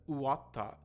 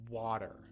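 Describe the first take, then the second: First: Said with a Japanese accent and extra vowels. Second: Said with a natural English strong W sound. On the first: The speaker calls it wrong. "instead of" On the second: The speaker calls it right.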